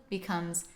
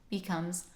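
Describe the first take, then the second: The two takes are said the same way.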